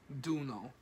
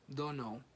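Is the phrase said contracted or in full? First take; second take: contracted; full. First: The two words are blended into one reduced word. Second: The two words are said fully and separately.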